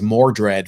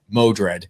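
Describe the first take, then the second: First: An R sound follows the first vowel. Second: No R sound follows the first vowel. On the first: The speaker calls it wrong. "which I mispronounced as Mordred" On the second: The speaker calls it right. "I finally actually saw that it was Modred"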